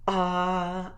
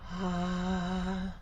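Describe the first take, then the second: First: The vowel starts with a hard glottal catch. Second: The vowel starts with audible breath before voice. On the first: "a harder onset, ah, a glottal" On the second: "a breathier onset"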